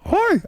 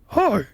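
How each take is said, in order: First: It is a high, falsetto-like voice. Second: It is a lower voice, out of falsetto.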